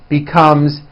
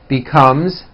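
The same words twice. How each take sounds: No difference in how they are said.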